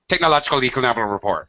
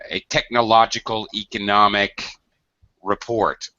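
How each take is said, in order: First: The phrase is said quickly and run together. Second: The phrase is said slowly and clearly. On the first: The speaker calls it wrong. "if you say that fast" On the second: The speaker calls it right. "slow down your speech a little"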